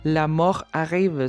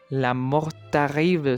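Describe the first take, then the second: First: No t sound links mort and arrive. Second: A t sound links mort and arrive. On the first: The speaker calls it right. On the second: The speaker calls it wrong.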